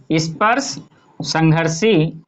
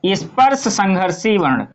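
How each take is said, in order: First: स्पर्श, pause, then a slow संघर्षी; word by word. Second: Said in the usual way. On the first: Shown as a demonstration. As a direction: break the term apart for students, drawing out संघर्षी. Teacher repeats term in parts.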